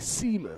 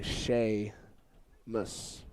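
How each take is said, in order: First: The name is read as spelled, starting 'see'. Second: The name starts with 'shay', the Irish way. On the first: This is how the spelling would suggest. "if you're pronouncing it literally" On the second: This is how the Irish name is said. "because it's an Irish name"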